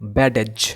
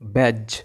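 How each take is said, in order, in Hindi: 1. d की आवाज़ एक अतिरिक्त स्वर के साथ बोली जाती है। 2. d की आवाज़ साइलेंट है, सिर्फ़ एक ही शब्दांश है। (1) "এটাকে যদি কেউ বলে যে ব্যাডেজ, তাহলে কিন্তু হবে না" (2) "এটার উচ্চারণ হবে ব্যাজ"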